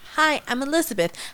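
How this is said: The greeting sounds lively and enthusiastic.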